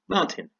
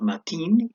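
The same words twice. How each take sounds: First: The stress is on the first syllable. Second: The stress is on the second syllable. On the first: The speaker calls it right. "stressed on the first syllable" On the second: The speaker calls it wrong. "My name is not Martin"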